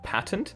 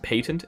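First: The word has an American-style pronunciation. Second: The word has an Irish-style pronunciation. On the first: "you guys prefer me to say patent" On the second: "It's an Irish accent"

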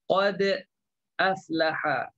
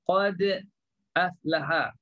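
First: A glottal stop separates qad from aflaha. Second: The same.

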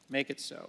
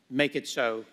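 First: It is said in his normal voice. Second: It is said in a Picard impression.

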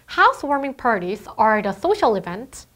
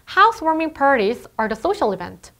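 First: Every word gets the same careful, even weight. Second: The small words are rushed; key words are stressed. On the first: The speaker calls it wrong. "이게 아니라" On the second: The speaker calls it right. "이렇게 빠르게 중요하지 않은 정보를 읽어 나가는 것"

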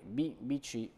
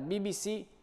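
First: The letters are read with Italian letter names. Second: The letters are read with English letter names. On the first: "ma è B B C" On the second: "l'abbiamo pronunciata all'inglese"

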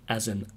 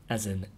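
The two takes are said the same way.

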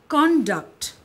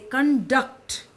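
First: The stress is on the first syllable. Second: The stress is on the second syllable. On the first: It is a noun meaning behavior. "if I say conduct, it will mean behavior. It is a noun" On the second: It is a verb meaning to lead or run something. "I give more stress on duct"

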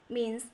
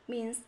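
Both takes have the same delivery.

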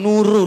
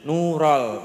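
First: The second syllable is said with an 'u' vowel. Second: The second syllable is said with an 'a' vowel. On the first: The speaker calls it wrong. "ampun nurul iki" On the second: The speaker calls it right. "nural, nural, mboten nurul"

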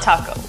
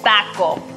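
First: The word is said without a Mexican accent. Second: The word is said with a Mexican accent. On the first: The speaker calls it wrong. "It's not taco" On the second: The speaker calls it right. "like a Mexican"

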